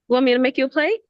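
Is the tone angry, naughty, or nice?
nice. It is said in a nice tone.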